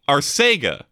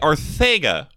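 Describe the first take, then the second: First: The middle consonant is a plain s sound. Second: The middle consonant is a lisped th sound. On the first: "It's a S" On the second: "with like a Spanish lisp"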